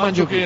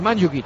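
First: The stress falls on a later syllable. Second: The stress is on the first syllable. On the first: The speaker calls it wrong. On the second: The speaker calls it right. "Es esdrújula"

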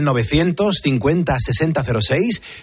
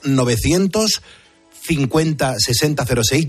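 First: The number is said at normal speed. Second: The number is said more slowly.

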